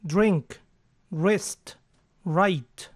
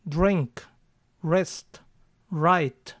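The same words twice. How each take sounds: First: "Drink" with a closed ɪ, near i; closed ɪ version. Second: "Drink" with an open e, like dreŋk; open E version. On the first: Teacher gives the corrected words, careful. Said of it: "la E es más cerrada y se parece más a una I". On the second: Teacher shows the open-mouth misreading. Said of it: "con una E con la boca más abierta". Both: Shown as a demonstration.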